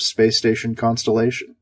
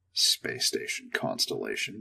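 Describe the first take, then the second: First: Said in the usual way. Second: Whispered, slow, mocking the name; sarcastic whispered repeat. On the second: A narrator's reading. Astronaut scoffing at the station's silly name, whispered. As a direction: breathe the name out in scorn. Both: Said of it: "What idiot came up with that name?".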